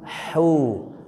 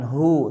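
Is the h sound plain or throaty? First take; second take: throaty; plain. First: The h is made in mid-throat. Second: The h is not made in mid-throat. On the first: The speaker calls it right. "Tapi hu. Nah, ya di tengah tenggorokan" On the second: The speaker calls it wrong. "Bukan hu"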